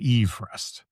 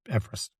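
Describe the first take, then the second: First: The name is said in its bearer's own pronunciation. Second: The name is said in the usual modern pronunciation. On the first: This is how the man himself said his name. The speaker calls it right. "who actually pronounced his name Everest" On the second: This is how people usually say the mountain's name. The speaker calls it wrong. "we've been pronouncing it wrong as Everest"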